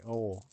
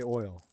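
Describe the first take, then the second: First: The vowel is a flat 'oh' without a glide. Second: The vowel glides into a clear 'oy' sound. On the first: This is how Southern speakers say it. "You guys don't pronounce it. You say oh" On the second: This is how the speaker himself says it. "Like I would say oil"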